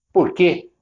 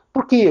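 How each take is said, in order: First: Curt, confrontational "Por quê?" with nose in the air; aggressive why. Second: "Por quê?" asked much higher and lighter, genuinely curious; interested why. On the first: Seller challenging a hesitant customer, curt and combative. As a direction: throw "Por quê?" at them like picking a fight. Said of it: "de uma maneira agressiva, nariz empinado". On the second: Seller gently probing why customer disliked product, curious. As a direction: ask "Por quê?" with open, friendly interest. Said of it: "no tom adequado". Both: Shown as a demonstration.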